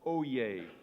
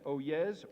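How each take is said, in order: First: The word ends with a 'yay' sound. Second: The word ends with a 'yes' sound. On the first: "or oh yay" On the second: "Oh yes, oh yes, or oh yay"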